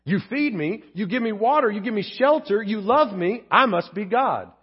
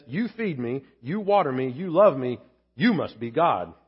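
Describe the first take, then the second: First: Self-satisfied cat, slowing on the last line; a hint of a self-important cat; lightly voiced smug cat. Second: Lower, adoring dog; a hint of a grateful loyal dog; lightly voiced humble dog; devoted dog voice. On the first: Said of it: "That's a cat". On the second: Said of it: "A dog says".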